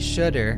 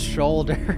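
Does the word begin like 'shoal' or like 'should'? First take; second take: should; shoal. First: The first syllable sounds like should. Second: The first syllable sounds like shoal. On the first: "Should. And then you put ER at the end, it should be shoulder" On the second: "But instead, it's shoulder"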